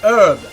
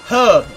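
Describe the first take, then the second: First: The word begins with a silent h. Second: The word begins with a pronounced h sound. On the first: The speaker calls it wrong. "as Americans pronounce it" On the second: The speaker calls it right. "the British pronunciation of the word herb"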